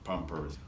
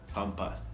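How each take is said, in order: First: It is said in standard English pronunciation. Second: It is said in Jamaican pronunciation. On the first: "The brand" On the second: "We Jamaicans say Pampas"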